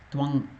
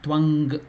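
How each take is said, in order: First: The word ends in a nasal hum without g. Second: The word ends with an audible g sound. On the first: The speaker calls it right. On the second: The speaker calls it wrong. "It is not Twang. G should not come"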